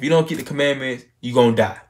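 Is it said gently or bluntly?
bluntly. It is said in a hard, blunt way.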